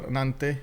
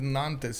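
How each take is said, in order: First: The final S is silent. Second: The final S is pronounced. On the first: "if it's a consonant at the end, we don't pronounce it" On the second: "with uh, the full S"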